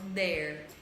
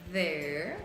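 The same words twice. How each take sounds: First: It begins with a hard 'd' sound. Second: It begins with a buzzing 'th' sound. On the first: The speaker calls it wrong. "da mesma forma como usam D" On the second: The speaker calls it right. "língua no dente, vibra o ar que passa entre a língua e o dente"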